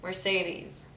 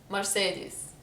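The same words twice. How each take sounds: First: Mercedes in an American English accent; English-language accent. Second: Mercedes with Lebanese vowels; Lebanese accent. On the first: Showing the version she struggles with, softer English accent. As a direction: softly say an English-style Mercedes. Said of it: "in an English accent". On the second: Showing viewers how Lebanon says it, softer Lebanese accent. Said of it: "That's how we say it in Lebanon". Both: Shown as a demonstration.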